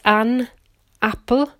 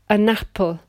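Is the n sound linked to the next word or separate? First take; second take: separate; linked. First: The n stays separate from the next word. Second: The n runs straight into the next word.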